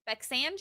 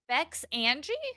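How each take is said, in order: First: It is said run together as one word. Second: It is said as two separate words. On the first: "Is it one word?" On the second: "is it Bex Angie?"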